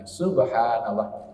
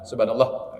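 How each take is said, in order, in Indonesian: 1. Diucapkan dengan santai, tidak terburu-buru. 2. Diucapkan dengan cepat, tergesa-gesa. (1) "tapi subhanallah" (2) "bukan subhanallah, bukan begitu ya"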